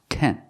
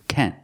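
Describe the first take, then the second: Both takes have the same delivery.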